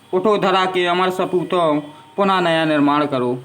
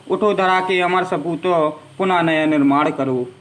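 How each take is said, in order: Both takes have the same delivery.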